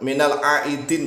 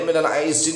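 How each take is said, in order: First: The word is said with a d sound. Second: The word is said with a z sound. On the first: The speaker calls it right. "pakai dal dulu" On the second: The speaker calls it wrong. "Jangan dibulak-balik"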